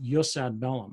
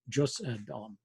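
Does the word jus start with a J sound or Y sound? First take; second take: Y sound; J sound. First: The word jus starts with a Y sound. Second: The word jus starts with a J sound.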